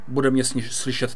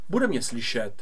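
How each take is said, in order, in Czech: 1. Hlas je nahrán asi půl metru daleko. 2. Hlas je nahrán více než 1,5 metru daleko. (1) "Když se posunu asi půl metru daleko od mikrofonu" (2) "A když se posuneme víc jak metr a půl od mikrofonu"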